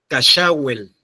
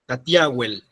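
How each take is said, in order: First: The middle consonant is a ch sound. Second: The middle consonant is a plain t sound. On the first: Only one person is known to say it this way. "como decía Nancy Paula López" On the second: This is the most common way to say it. "la más usada"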